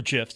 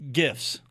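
First: "gifs" pronounced like jifs, with a J sound; soft G. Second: "gifs" with a hard G as in go. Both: Shown as a demonstration. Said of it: "depending on your, uh, your take".

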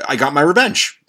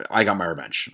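First: Said in the usual way. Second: Softer, lower murmur of satisfaction; quiet satisfied repeat. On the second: Real, not acted. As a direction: savour it quietly to yourself. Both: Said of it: "repeated line".

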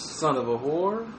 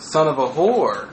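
First: Low, soft, questioning rise at the end; attempt at bass. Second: Low, slow, falling delivery; trying out the phrase. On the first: Retrying the insult for a co-host, tentatively bassy. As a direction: try it deep and quiet, lifting at the end. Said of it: "You gotta have the right bass". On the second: Testing how the insult rings, low and slow. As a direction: roll it out slowly and low, ending down. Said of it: "How does it ring? It doesn't roll good". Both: Shown as a demonstration.

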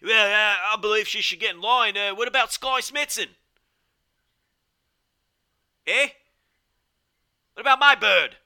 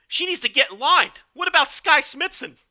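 First: Higher, louder mock British commentator; British Gideon Gray impression. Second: Much higher, louder annoyed East Coast guy; Gideon Gray impression. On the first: British commentator scoffing at a title contender, higher, louder mock British accent. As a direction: put on a British accent, pitched up and loud, scoffing. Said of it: "it was more like this".

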